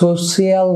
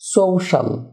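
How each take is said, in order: First: The ending is said as two syllables, shi-al. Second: The ending is said as one syllable, shal. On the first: The speaker calls it wrong. "সোশিয়াল না হয়ে" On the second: The speaker calls it right. "হবে সোশ্যাল"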